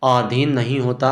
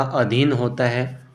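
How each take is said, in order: First: आधीन said with long first vowel, the wrong way; wrong spelling read out: आधीन; wrong form. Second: अधीन said slowly with short first vowel; slow, careful अधीन with a short अ; teacher's corrected अधीन, deliberately slow; correct form. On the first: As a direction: stretch the आ in आधीन as the mistake. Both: Shown as a demonstration.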